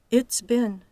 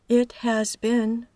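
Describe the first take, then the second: First: The verb is reduced to a voiceless s. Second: The verb is said as a full word.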